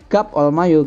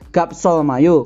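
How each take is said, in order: First: A pause separates the first word, with no s sound. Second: The s sound joins onto the following word. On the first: The speaker calls it right. "Karena sini ada komanya" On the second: The speaker calls it wrong. "Nggak boleh gap sol mayo karena dia ada tanda koma"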